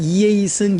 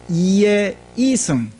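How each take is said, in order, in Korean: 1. 표준어처럼 평평하고 고른 높낮이로 발음합니다. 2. 경상도식의 변화가 있는 높낮이 패턴으로 발음합니다. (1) "우리가 이야기할 때는" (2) "발음을 할 때는"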